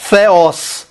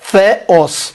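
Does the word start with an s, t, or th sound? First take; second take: th; th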